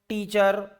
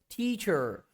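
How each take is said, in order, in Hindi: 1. पहली t सादी है, इसमें साँस की फूंक नहीं है। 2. पहली t में साँस की तेज़ फूंक है। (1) "They will pronounce like this" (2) "Like this you have to pronounce"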